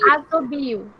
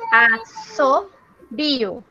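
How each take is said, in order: First: The middle consonant is a buzzing z sound. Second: The middle consonant is a hissing s sound. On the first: The speaker calls it wrong. "se ficasse com S só, seria azobio" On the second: The speaker calls it right. "É dois S. Olha como que fica"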